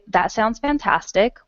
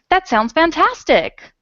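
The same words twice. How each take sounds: First: It is said calmly, as a plain statement. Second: It is said excitedly, as an exclamation.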